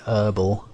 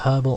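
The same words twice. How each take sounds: First: The word begins without any h sound. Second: The word begins with a clear h sound. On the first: The speaker calls it right. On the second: The speaker calls it wrong.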